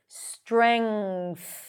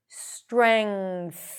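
First: It ends with an ng sound then th. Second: It ends with an ng sound then th.

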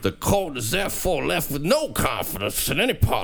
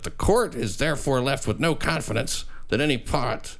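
First: It is read in a put-on regional accent. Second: It is read in a natural, unaccented voice.

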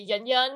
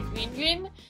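First: It uses a simpler, more widely common sound. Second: It uses a sound found mainly in Chinese. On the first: This is how non-native speakers usually say it. "a lot of people just would say Yun Yun" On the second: This is the original form of the name. "it's actually pronounced the Yun Yun"

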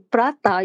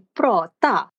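First: It sounds like the English name of the dish. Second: It is said with Swedish pronunciation. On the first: It names a snack dish. The speaker calls it wrong. "you don't say prata" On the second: It means to speak or to talk. The speaker calls it right. "you say prata"

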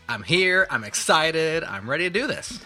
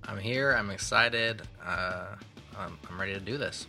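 First: The voice is lively and high in energy. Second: The voice is flat and low in energy. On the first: The speaker calls it right. "You gotta sound excited" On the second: The speaker calls it wrong. "You don't sound excited"

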